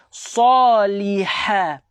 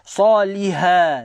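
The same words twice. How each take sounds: First: The h sound is harsh and breathy. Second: The h sound is soft and plain. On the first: The speaker calls it right. "pedaskan dia" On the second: The speaker calls it wrong.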